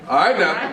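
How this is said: It is said in a warning, threatening tone.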